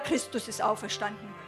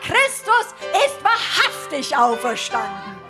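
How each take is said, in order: First: It is said hesitantly and timidly. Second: It is called out boldly and confidently.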